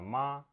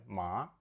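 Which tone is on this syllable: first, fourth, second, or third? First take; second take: first; second. First: The syllable is said with the first tone. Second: The syllable is said with the second tone. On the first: It means mother. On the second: It means hemp.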